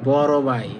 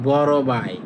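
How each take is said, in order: The two takes are said the same way.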